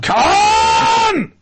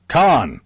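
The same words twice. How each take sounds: First: The name is yelled out in a dramatic way. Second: The name is said flatly at normal volume. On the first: The speaker calls it right. "There you go" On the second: The speaker calls it wrong. "am I getting the right intonation on that? No"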